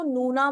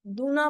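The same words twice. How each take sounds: First: नूना with a clear nasal N at the start; plain N sound. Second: दूना with the first N hardened to D; accented D sound. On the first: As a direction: say नूना with N, not D. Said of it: "नूना बोलोगे तो incorrect नहीं है". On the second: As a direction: say दूना with D in place of N. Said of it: "दूना बोलोगे तो आपको लगेगा". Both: Shown as a demonstration.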